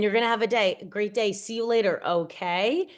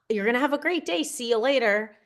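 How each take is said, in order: First: It sounds hesitant, like asking permission. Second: It sounds confident and sure.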